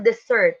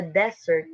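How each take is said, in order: First: "desert" said de-SERT, as the verb; stress on second syllable. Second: "desert" said DES-sert, as the noun; stress on first syllable. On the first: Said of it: "It is stress". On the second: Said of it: "It is unstressed". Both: Shown as a demonstration.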